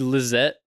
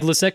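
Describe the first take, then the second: First: The middle consonant is a buzzing Z sound. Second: The middle consonant is a hissing S sound. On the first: This is how others wrongly say the name. The speaker calls it wrong. "With the Z?" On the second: This is how the owner says the name. The speaker calls it right. "An S is an S, not a Z"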